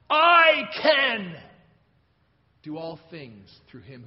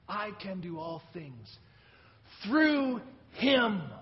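First: The word "can" is stressed. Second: The word "Him" is stressed. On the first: The speaker is able to do it. "I can!" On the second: The power comes from Him, not the speaker. "It's all about Him. It's not about me"

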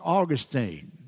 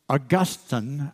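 First: The name in the Southern US pronunciation. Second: The name in its older, non-Southern pronunciation. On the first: This is how people in the South say it. "But here in the South, we call it Augustine" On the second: This is how the man himself said it. "I think that's the way he pronounced it"

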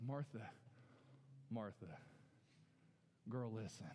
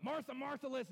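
First: It is said in a gently amused tone. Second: It is said in an angry tone.

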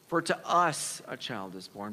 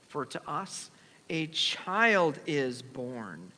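First: The word us is stressed. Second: The word child is stressed.

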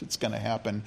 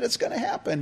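First: It sounds sarcastic and disbelieving. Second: It sounds excited and delighted.

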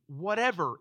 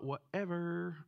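First: It is said in a plain, sincere tone. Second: It is said in a dismissive, bored tone. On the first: It means all things without exception. "It's legitimately whatever" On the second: It signals careless indifference. "not the Valley Girl whatever"

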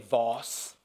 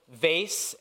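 First: It is said in a British accent. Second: It is said in an American accent.

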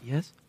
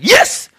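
First: It is said very quietly. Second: It is said loudly and eagerly.

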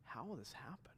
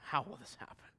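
First: It sounds wondering and curious. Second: It sounds doubting and skeptical.

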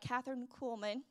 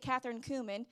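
First: The surname is said clearly as Kuhlman. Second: The surname sounds like the spice cumin. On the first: The speaker calls it right. "let me say it right" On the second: The speaker calls it wrong. "I used to say Catherine Kuhlman, and my sister would say, she's not a spice in your spice jar"

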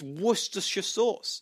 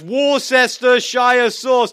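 First: Worcestershire is said with few syllables. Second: Worcestershire is said with many syllables. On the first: The speaker calls it right. "no, it's not. It's" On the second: The speaker calls it wrong. "How many syllables he's using, I have no idea. But it was like a mouthful"

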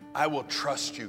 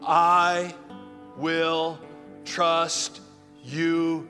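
First: It is said in a plain, calm voice. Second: It is said with strong, forceful conviction. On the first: The speaker calls it wrong. "Say this with me" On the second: The speaker calls it right. "You got to say it with more conviction than that"

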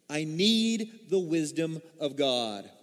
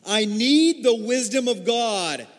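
First: It is said plainly, without extra force. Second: It is said forcefully, with strong conviction.

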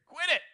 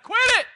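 First: It is said at a normal speaking volume. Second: It is shouted loudly and forcefully. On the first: "I can look at you and say" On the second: "I can even shout it"

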